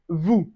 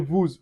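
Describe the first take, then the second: First: The final s sound is silent. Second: The final s sound is pronounced. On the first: The speaker calls it right. "we say vous" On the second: The speaker calls it wrong. "We don't say vous"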